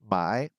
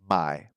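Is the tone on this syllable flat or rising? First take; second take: rising; flat. First: The syllable is said with a rising tone. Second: The syllable is said with a flat tone. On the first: It means to buy something. "My with a rising tone is to buy something" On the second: It means to sell something. "my with a flat tone is to sell something"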